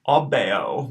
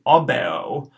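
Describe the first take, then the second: First: Repeated "obeo"; repeated Latin word. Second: "obeo" short o, eh, long o; first take of "obeo"; modelled Latin word. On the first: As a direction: echo "obeo". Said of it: "short E right in the middle". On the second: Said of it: "The last O is going to be long". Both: Shown as a demonstration.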